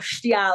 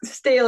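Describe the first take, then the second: First: It is said with a Gaelic-like stee-al vowel. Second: It is said like the English word steel. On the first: This is closer to the original Gaelic form. "I think it's probably supposed to be" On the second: This is the common local anglicized form. "we definitely that just anglicize and call it steel"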